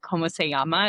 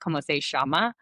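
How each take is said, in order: First: It is said in a neutral Spanish accent. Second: It is said in an Argentinian Spanish accent.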